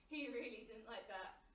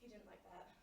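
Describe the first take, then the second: First: He really didn't like that, with really lifted; stress on really. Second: Hushed and low, almost to herself; a low, muted first take; quiet. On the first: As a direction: push the word really harder. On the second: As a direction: murmur it under the breath. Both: Acted.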